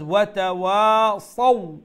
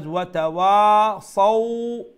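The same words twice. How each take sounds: First: "watawasaw" with the final "saw" kept short; "watawasaw" ending on a brief "aw" glide; quick lean ending. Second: "watawasaw" with the final "saw" drawn out long; loud "watawasaw", last syllable dragged out; prolonged ending, as error. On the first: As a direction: say "watawasaw", releasing the last glide quickly without stretching it. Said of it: "with a soft tone and a quick tone". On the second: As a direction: stretch the last "aw" of "watawasaw" into a long held glide. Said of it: "we won't prolong that". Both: Shown as a demonstration.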